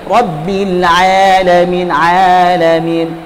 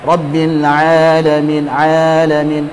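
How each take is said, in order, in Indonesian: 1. Vokalnya diucapkan dengan kejelasan ekstra, sengaja dibuat jelas. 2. Vokalnya diucapkan santai. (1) "supaya lebih jelas" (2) "walaupun dia agak santai gitu ... sudah tidak keluar dari hidung, a itu sudah cukup"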